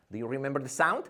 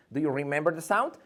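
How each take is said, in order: Both takes have the same delivery.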